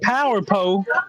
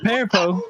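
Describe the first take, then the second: First: 'Power' is said with two syllables. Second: 'Power' is squeezed into one syllable, like 'pear'. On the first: "instead of saying power pole" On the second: "I would say pear pole"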